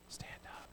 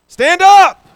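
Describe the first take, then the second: First: It is said quietly and flatly. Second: It is said loudly, as a shout. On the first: It is a casual, ordinary request. The speaker calls it wrong. "that doesn't mean he just goes" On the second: It is a forceful command making a point. The speaker calls it right. "called to him in a loud voice"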